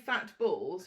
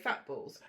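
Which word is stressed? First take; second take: balls; fat. First: The stress is on balls. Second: The stress is on fat.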